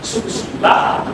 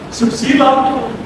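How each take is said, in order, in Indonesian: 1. Vokal akhirnya adalah bunyi 'a' terbuka. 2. Vokal akhirnya adalah bunyi 'o'. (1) "Begitu yang tertulis di K T P" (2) "Orang Jawa A-nya dibaca O"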